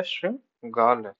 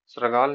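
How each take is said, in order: First: श्रृंगाल said slowly without r, as "shangaal"; corrected form. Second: श्रृंगाल said with an extra r, as "sragaal"; wrong form. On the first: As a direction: slowly break शृंगाल after the first syllable. (शृंगाल, धीरे और तोड़कर) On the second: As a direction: say श्रृंगाल with the र cluster. (श्रृंगाल, र की आवाज़ के साथ) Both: Shown as a demonstration. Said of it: "श्रृंगाल नहीं होता".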